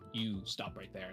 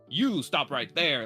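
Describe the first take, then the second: First: It is said softly and subtly. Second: It is said loudly and forcefully.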